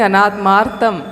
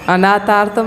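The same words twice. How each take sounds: First: "अनात्मार्थम" with a clear t-m cluster, a-naat-maar-tham; correct reading. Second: The mistaken "अनाथार्थम" with an aspirated th; wrong reading. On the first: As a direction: stress the t and m in "अनात्मार्थम". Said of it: "अनाथार्थम नहीं, अनात्मार्थम". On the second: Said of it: "अनाथार्थम नहीं". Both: Shown as a demonstration.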